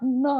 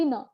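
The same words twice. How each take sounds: First: "n" with a drawn-out vowel after it; unwanted n variant. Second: "n" with only a short vowel after it; bare n sound. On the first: Teacher warning learners off a variant, drawn-out "n". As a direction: stretch the sound after "n" as the version to avoid. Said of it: "not n". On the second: Teacher showing learners the only sound wanted, short "n". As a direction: keep "n" short and simple. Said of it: "only n". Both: Shown as a demonstration.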